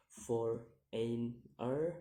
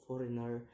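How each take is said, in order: First: "foreigner" very slow in three beats, last rising; syllable by syllable. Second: Said in the usual way. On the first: Shown as a demonstration. Teacher demonstrating syllables, "foreigner" slow and split. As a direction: pause between each syllable of "foreigner". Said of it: "three syllables to say". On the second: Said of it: "the ending er".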